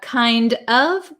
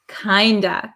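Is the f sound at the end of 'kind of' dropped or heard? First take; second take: heard; dropped. First: The f sound at the end is heard. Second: The f sound is dropped, ending in a vowel. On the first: "We have kind of" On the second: "The F, which is a V sound, disappears, and we're left with this O vowel"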